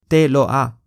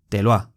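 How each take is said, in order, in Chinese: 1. 这些词是分开说的，不连读。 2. 这些词是连在一起说的，很顺畅。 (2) "一般来说都会练音"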